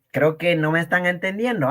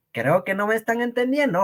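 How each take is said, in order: First: Said in the usual way. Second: Quicker and higher, pressing the point; faster, insistent repeat. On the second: Shown as a demonstration. Teacher repeats to confused students, faster and insistent. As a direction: repeat it fast and higher, exasperated. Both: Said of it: "¿ah?".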